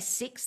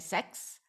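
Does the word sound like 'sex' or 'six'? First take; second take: six; sex. First: The vowel is the usual short i sound. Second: The vowel sounds like the e in sex. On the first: "they don't say six" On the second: "they say sex"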